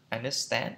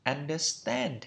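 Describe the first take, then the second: First: Understand lifting at the end like a question; rising intonation. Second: Said in the usual way. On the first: Shown as a demonstration. Teacher showing question tune, understand with a rising ending. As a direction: raise the pitch on the "stand" of understand. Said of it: "lên giọng". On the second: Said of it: "Phải đọc đúng theo phiên âm".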